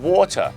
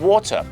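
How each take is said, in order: No difference in how they are said.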